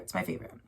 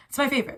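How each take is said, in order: First: Softer, to herself; a quiet echo of the first; quiet repeat. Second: Higher and louder, gushing; bright burst of delight; excited. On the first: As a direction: murmur it back privately. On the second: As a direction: blurt it out delighted. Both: Real, not acted. Repeats phrase in two ways.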